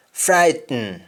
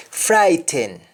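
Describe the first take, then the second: First: Sung, FRIGHTEN as "fright-n"; sung, Jamaican syllabic N in FRIGHTEN; Jamaican humming. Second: FRIGHTEN with full "ten"; English-style vowel ending on FRIGHTEN; English pronunciation. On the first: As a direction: hum the end of FRIGHTEN. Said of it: "That is harming". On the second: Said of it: "we don't say happen". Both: Shown as a demonstration.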